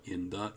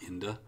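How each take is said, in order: First: Both words are said fully and separately. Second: The words blend, with a weak schwa vowel.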